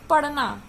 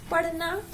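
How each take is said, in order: First: "पढ़ना" said as paṛna, without aspiration; incorrect pronunciation. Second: Said in the usual way. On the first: Shown as a demonstration. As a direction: flatten the ṛh of "पढ़ना" to an unaspirated ṛ. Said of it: "अशुद्ध शब्द". ("पढ़ना" में ढ़ को ड़ बोलें) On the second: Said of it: "पढ़ना शुद्ध शब्द है".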